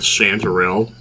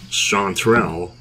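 First: The word is said with three syllables. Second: The word is said with two syllables. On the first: The speaker calls it wrong. "I've been kind of like pronouncing that chanterelle" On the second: The speaker calls it right. "I think it's actually just chanterelle, like that. Like there's not a third syllable"

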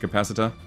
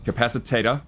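First: The word is said with four syllables. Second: The word is said with five syllables. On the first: The speaker calls it right. "although I got it right already" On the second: The speaker calls it wrong. "still saying it wrong"

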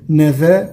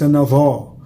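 First: The consonant after the n is plain and light. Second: The consonant after the n is heavy and emphatic. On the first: The speaker calls it right. "النون والذال من حروف الترقيق" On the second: The speaker calls it wrong. "وليس"

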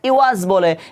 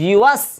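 First: The middle has a glottal catch. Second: The middle has a smooth y glide. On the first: The speaker calls it wrong. "এখানে কিন্তু অনেকেরই ভুল হয়, কি বলে? ইউয়াস বলে।" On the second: The speaker calls it right. "এখানে কিন্তু হামজা দেওয়া নেই, এখানে কি দেওয়া রয়েছে? ইয়া দেওয়া রয়েছে।"

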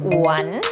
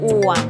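First: The pitch dips low then rises. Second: The pitch stays low and level. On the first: "อ้วนไม้จัตวาอ้วน" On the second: "อ้วนไม้เอกอ้วน"

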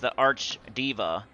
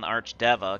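First: The name sounds like the word 'diva'. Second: The name sounds like 'deva', not 'diva'. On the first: "Diva is like freaking [name]" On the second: "I call him the Arch Deva"

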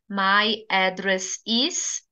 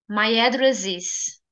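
First: The words are said separately with small pauses. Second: The final s links smoothly into the next word. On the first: The speaker calls it wrong. "em vez de você falar pausadamente" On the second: The speaker calls it right. "diga my address is"

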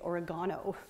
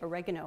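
First: Oregano is pronounced the British way. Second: Oregano is pronounced the non-British way.

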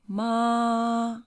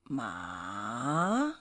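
First: The pitch stays high and level. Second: The pitch dips down and then rises. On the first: "the first one" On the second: "the third one going down and coming up"

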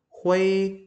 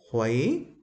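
First: The pitch stays high and level throughout. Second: The pitch rises from mid to high. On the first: "Thanh một" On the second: "thanh hai"

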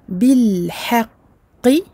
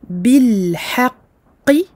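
Both takes have the same delivery.

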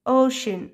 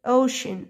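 No difference in how they are said.

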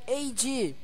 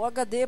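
First: The letters are said with English letter names. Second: The letters are said with Portuguese letter names.

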